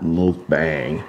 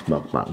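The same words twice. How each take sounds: First: "mukbang" drawn out slowly, the mistaken way; wrong pronunciation. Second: "mukbang" said quickly and quieter, the right way; correct pronunciation. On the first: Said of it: "Not mukbang, it's mukbang". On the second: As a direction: correct it: "mukbang", softer and brisk. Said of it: "it's mukbang". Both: Shown as a demonstration.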